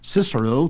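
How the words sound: It uses the English pronunciation. "to the English speaker"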